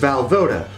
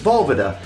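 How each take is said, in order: First: The name is said the everyday anglicized way. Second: The name is said the original Czech way. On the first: The speaker calls it wrong. "my last name is" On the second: The speaker calls it right. "would be more correctly pronounced as"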